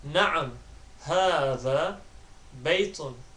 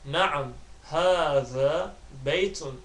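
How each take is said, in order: Both takes have the same delivery.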